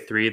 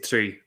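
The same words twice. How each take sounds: First: The word begins with a soft th sound. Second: The word begins with a hard t-like sound. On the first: This is not the Irish way. "they don't say three" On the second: This is the Irish way. "they say three"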